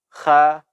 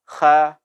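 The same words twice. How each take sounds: First: The letter is said light and thin. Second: The letter is said light and thin.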